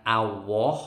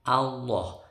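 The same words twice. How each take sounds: First: "Allah" said as awo, no clear l; wrong pronunciation. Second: "Allah" with a heavy rounded lam, aloh; correct pronunciation. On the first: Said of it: "Bukan Allah". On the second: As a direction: say "Allah" properly with a thick l. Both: Shown as a demonstration.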